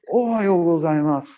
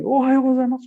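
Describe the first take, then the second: First: Slow, serious Japanese guest imitation; hóspede japonês sério. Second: Higher, louder greeting, acted out; saudação efusiva encenada. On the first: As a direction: draw the greeting out solemnly, playing the startled guest. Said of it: "Aí fez sério, assim". (imitação de japonês sério, saudação arrastada) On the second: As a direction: blurt out the Japanese greeting before he can. Antecipa-se e assusta o hóspede japonês. (saudação repentina, alta e efusiva, encenada)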